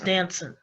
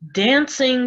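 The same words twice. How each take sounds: First: The ending is said as 'in', g dropped. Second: The ending is said with a full 'ing' sound.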